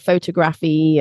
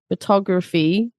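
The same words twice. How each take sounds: First: The stress is on the first syllable. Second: The stress is on the second syllable. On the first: The speaker calls it wrong. "So I often hear photography" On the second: The speaker calls it right. "stress on the tog"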